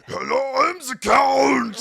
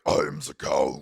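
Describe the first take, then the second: First: Booming gravelly shout, drawn out on Count; hammed-up monster roar, very loud; deep, gravelly voice. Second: Low, loud monster growl; deep, gravelly voice. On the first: The Count greeting guests from the stairs, deep gravelly voice. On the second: Retold or imitated. Little guy introducing himself as the Count, deep gravelly voice. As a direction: growl it far down in pitch. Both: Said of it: "a deep, gravelly voice".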